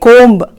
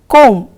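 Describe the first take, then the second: First: The B at the end is pronounced. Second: The B at the end is silent. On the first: The speaker calls it wrong. "don't say comb" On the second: The speaker calls it right. "you say comb"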